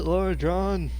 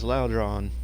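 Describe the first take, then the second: First: The name is said with an R sound inside. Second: The name is said without an R sound inside. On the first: The speaker calls it wrong. "I think I've been mispronouncing it this whole time" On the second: The speaker calls it right. "I realize there's no R there. This is Laudron"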